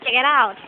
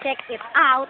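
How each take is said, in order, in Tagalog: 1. Pinagdudugtong ang mga salita sa isang daloy. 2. Magkakahiwalay na binibigkas ang bawat salita. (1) "but check it out" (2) "you will not pronounce it as check it out"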